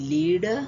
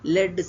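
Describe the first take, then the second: First: The vowel is a long 'ee' sound. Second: The vowel is a short 'eh' sound.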